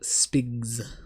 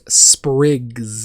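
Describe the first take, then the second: First: The word has no r sound after sp. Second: The word has an r sound after sp. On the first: This is the speaker's own accent. "but I pronounce them spigs" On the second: This is how most people say it. "most people pronounce those sprigs"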